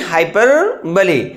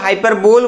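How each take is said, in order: First: The word ends on an ee sound. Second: The word ends on an l sound. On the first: The speaker calls it right. "इसका जो pronunciation होगा वो है हाइपरबोली" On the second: The speaker calls it wrong. "बहुत सारे लोग हाइपरबोल बोलते हैं, जो कि बहुत ही गलत है"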